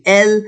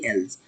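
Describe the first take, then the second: First: "elle" ending cleanly on l; silent plural S. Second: "elles" ending in a z sound; liaison Z ending. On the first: Teacher contrasts the forms, "elle" without S sound. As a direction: say "elle" with no z after it. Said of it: "If I have a verb start". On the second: Teacher shows the form before vowels, "elles" with z. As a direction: say "elles" as "ellz". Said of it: "verb start with vowel". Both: Shown as a demonstration.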